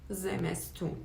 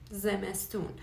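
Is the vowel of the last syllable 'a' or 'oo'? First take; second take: oo; oo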